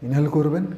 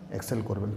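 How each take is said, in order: First: Higher, rising as if drawing breath; demonstrated inhale. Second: Softer, settling out-breath; demonstrated exhale. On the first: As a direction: lift the pitch as you breathe in. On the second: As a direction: let the voice drop away as you breathe out. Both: Shown as a demonstration. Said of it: "কীরকমভাবে?".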